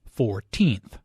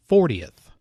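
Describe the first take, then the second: First: Put-on "fourteenth" with the weight on "teenth"; second-syllable stress. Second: "fortieth" with the weight on "for"; first-syllable stress. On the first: Teacher contrasting with fortieth, "fourteenth" stressed on "teenth". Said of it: "The stress is on the second syllable". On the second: Teacher contrasting with fourteenth, "fortieth" stressed on "for". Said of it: "Compare this with fortieth". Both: Shown as a demonstration.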